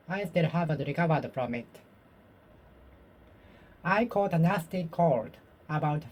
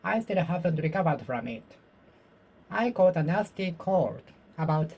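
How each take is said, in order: Both takes have the same delivery.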